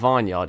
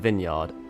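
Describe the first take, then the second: First: The first syllable sounds like the word vine. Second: The first syllable sounds like short vin. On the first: The speaker calls it wrong. "but it's not a vineyard" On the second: The speaker calls it right. "it's a vineyard"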